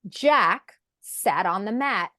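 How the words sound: There is a pause after Jack.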